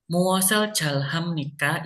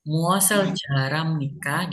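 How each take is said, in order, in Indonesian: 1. Bunyi h diucapkan terpisah setelah l. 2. Bunyi l dan h menyatu menjadi satu bunyi r. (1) "ya boleh juga" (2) "R sama H-nya jadiin satu ya"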